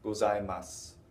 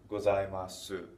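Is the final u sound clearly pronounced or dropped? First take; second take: dropped; clear. First: The final u is barely heard. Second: The final u is clearly pronounced. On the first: This is the usual everyday way to say it. "the way I've been pronouncing it, and the way most Japanese people will say this" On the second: This sounds very formal or like a phone call. "They won't put that u on the end very distinctly"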